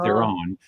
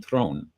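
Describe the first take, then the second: First: The name is said as two syllables. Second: The name is said as one syllable. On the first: This is how it is said in North America. The speaker calls it wrong. "the North American pronunciation of ... giving it like two syllables" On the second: This is how it is said in South Africa. The speaker calls it right. "in South Africa you pronounce her last name Throne"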